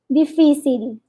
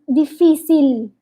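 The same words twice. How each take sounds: First: The word is said exaggerated, tongue held high. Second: The same.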